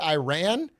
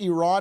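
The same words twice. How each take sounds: First: It uses the American-style pronunciation of the name. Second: It uses the Persian-style pronunciation of the name. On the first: The speaker calls it wrong. "who said it like that my entire childhood" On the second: The speaker calls it right. "my Persian friend told me that's how you should pronounce it"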